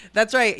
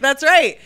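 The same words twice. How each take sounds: First: Said in the usual way. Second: Loud, emphatic agreement. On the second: Real, not acted. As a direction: say it loud and proud. Emphatic repeated.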